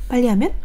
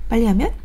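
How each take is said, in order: The two takes are said the same way.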